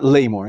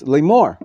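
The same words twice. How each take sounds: First: The stress is on the first syllable. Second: The stress is on the second syllable. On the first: The speaker calls it wrong. "It's not Lamor" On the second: The speaker calls it right. "there's a line underneath the mem"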